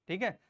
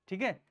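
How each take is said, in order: The two takes are said the same way.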